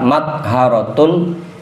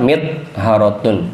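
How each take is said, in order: First: The first vowel after m is a. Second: The first vowel after m is i. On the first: "fathah mimnya" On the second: "atau kasroh"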